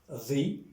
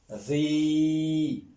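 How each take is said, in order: First: "ri" with a brief i, rising; short vowel. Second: "ri" with the i held long and level; long vowel. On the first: Teacher repeating the reading, "ri" kept short. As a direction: say "ri" short, lifting at the end. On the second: Teacher repeating the reading, "ri" drawn out. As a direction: sustain the i of "ri". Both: Shown as a demonstration. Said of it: "Je répète la, la lecture".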